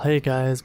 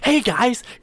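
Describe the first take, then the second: First: It is said flatly with low energy. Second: It is said loudly with high energy.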